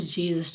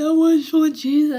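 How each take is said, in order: First: Said in the usual way. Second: Loud, high anguished cry. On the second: Real, not acted. Man reliving his cell breakdown, cries out loud and high. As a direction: let it burst out with longing.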